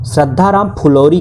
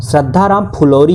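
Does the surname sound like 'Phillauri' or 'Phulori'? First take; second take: Phulori; Phulori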